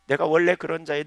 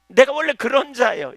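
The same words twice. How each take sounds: First: Said in the usual way. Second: Higher, louder, stressing 내가; 내가 punched high and loud in full preaching; preached confession. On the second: Acted. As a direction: proclaim 내가 원래 그런 자예요 loudly. Repeats confession, preached then calm.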